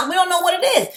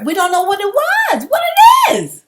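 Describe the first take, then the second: First: High, brisk emphatic aside; raised emphatic toss-off. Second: High, loud, fed-up burst; loud exasperated yell; exasperated outburst. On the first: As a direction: toss it off quickly, pitch up. Repeating example, raised pitch. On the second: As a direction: throw it out in frustration. Ranting, voice jumps to shout. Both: Real, not acted.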